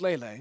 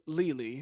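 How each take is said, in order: First: The name is said with two lay-like syllables. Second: The name is said like the word lily. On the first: The speaker calls it right. "It's Lele" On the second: The speaker calls it wrong. "It's not Li- Lily"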